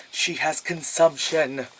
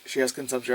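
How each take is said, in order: First: "consumption" stretched out slowly for emphasis; slow, heavy announcement of "consumption"; big-letters emphasis. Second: Said in the usual way. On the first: Retold or imitated. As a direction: spell out "consumption" as if in capitals. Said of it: "I write in big letters". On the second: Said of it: "I wrote down".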